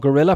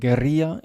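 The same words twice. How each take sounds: First: It sounds like the English word for gorilla. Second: It is pronounced with Spanish sounds. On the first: "pronounced like the animal in English" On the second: "guerrilla in in uh, Spanish"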